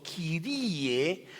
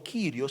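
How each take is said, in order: First: Kyrie slow and drawn out, ending on e; Kyrie, slowly, with a clear final e; vocative ending. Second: Kyrio with a plain o ending; wrong ending. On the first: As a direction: stretch Kyrie out with a rising end. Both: Shown as a demonstration. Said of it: "no Kyrio, sino Kyrie".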